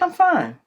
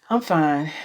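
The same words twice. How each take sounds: First: It is said plainly without a sigh. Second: It is said with a sigh. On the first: The person really is fine. "that means I am, I'm fine" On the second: The person is not really fine. "and they sigh, that means they're not fine"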